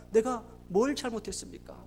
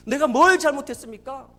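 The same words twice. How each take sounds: First: Retold anguish, soft and falling; subdued protest. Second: Retold wail of protest, loud and rising; crying out. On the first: Father asking God what he did wrong, subdued protest. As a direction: ask it as a hurt, quiet reproach. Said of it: "병원에서 그렇게 울부짖었대요". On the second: Father in intensive care crying out to God, loud protest. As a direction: hurl the question up at God, louder. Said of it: "그렇게 울부짖었대요".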